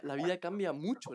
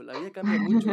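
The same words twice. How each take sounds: First: Said in the usual way. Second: The repeat louder and higher, leaning on "mucho"; emphatic repeat. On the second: Real, not acted. Host stressing to guest, loud emphatic "mucho". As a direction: hammer home "mucho" with a louder, higher push. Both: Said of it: "repeated for emphasis".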